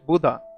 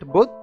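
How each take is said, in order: First: The word ends with an added final vowel. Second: The word ends on a consonant, without a vowel. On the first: This is how English speakers say it. "in English, people, because of the pronunciation, accent, they call it Buddha" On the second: This is how the speaker's own community says it. "we call it Buddh"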